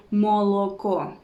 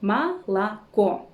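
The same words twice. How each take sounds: First: Молоко with three full o sounds, "mo-lo-ko"; unreduced O. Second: Молоко slowly as "ma-la-KO"; vowel reduction. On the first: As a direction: mispronounce молоко exactly as it is written. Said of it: "We don't say". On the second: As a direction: sound out Молоко with two "a"s and a final stressed "o". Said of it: "them as A". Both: Shown as a demonstration.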